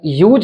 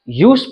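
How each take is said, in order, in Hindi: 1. शब्द का अंत भनभनाती z ध्वनि से होता है। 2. शब्द का अंत फुसफुसाती s ध्वनि से होता है। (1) "इसका उच्चारण यूज नहीं पढ़ेंगे" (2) "यूज पढ़ेंगे"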